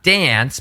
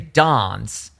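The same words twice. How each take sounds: First: The vowel sounds American, as in 'cat'. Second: The vowel sounds British, as in 'father'. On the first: The speaker calls it wrong. "not dance" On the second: The speaker calls it right. "make it sound British"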